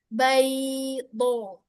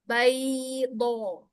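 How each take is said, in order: The two takes are said the same way.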